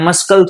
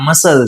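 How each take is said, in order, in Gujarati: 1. મધ્યમાં k અવાજ બોલાય છે. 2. મધ્યમાં કોઈ k અવાજ સંભળાતો નથી. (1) "આને મસ્કલ થોડી બોલાય" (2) "આ મસલ છે"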